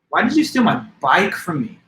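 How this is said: The word bike is stressed. Of all things, the bike was the one taken. "Now I place the emphasis on what word? Bike"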